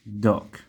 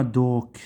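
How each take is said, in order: First: دوك with a short open "aw" vowel, like "dawk". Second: دوك with a long rounded "oo/oh", like "doke"; wrong rounded vowel. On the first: Teacher models the word for students, open vowel in دوك. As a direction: say دوك with the O opened toward "ah". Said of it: "لفظنا حرف ال O كالواو المفتوح". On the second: Teacher shows students the mistake, rounded vowel in دوك. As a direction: mispronounce دوك with a drawn-out closed O. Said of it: "إذا لفظنا دوك راح يصير كالواو المضموم". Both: Shown as a demonstration.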